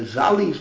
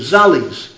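First: The first vowel sounds like 'u'. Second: The first vowel sounds like 'a'. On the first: The speaker calls it wrong. "I'm pronouncing it wrong" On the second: The speaker calls it right. "An A instead of the U"

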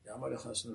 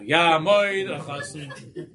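First: It is said at normal volume. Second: It is said loudly, like the father.

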